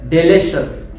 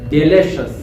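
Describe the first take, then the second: No difference in how they are said.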